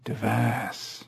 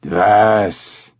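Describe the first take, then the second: First: Much softer imitation of a cough-like word; tentative, hushed guttural copy; repeated ape sound. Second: Guttural orangutan bark of a word; throaty animal utterance; cough-like ape sound. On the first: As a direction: echo the animal's sound quietly. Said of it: "Hager repeated the sound back". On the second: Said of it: "made an odd sound, like a cough". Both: A narrator's reading.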